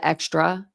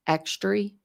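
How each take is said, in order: First: Said in the usual way. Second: "extry" with a final ee instead of uh; grandmother's "extry" pronunciation. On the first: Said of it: "instead of". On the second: Retold or imitated. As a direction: say extra as "extry". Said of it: "My grandmother used to say".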